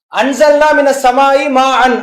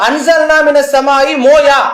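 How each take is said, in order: First: The last word is said as 'maan'. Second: The last word is said as 'moya'. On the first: The speaker calls it right. "அல்லாஹ் சொல்றான்" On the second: The speaker calls it wrong. "அப்படின்னு சொல்லலாமா?"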